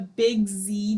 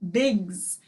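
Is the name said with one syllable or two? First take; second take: two; one. First: It is said as two syllables, ending in zee. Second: It is said as one syllable, ending in z. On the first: The speaker calls it wrong. "I don't think Big Z is the correct way to say it" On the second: The speaker calls it right. "I think it's Biggs"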